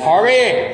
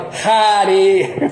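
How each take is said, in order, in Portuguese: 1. É pronunciado com sotaque do inglês americano. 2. O A é aberto, no estilo do português brasileiro. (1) "é pronúncia do americano" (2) "aportuguesado, porque a gente abre o A"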